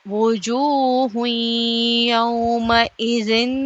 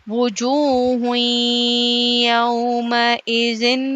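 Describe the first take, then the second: Both takes have the same delivery.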